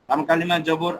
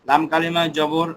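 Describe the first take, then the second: The two takes are said the same way.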